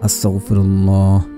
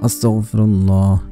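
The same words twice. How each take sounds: The two takes are said the same way.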